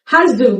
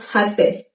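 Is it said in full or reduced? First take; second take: full; reduced. First: Both words are pronounced in full. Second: The two words merge into one shortened form.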